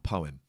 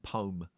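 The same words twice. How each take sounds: First: It is said with a non-American pronunciation. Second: It is said with an American pronunciation. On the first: "for poem" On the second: "Americans say"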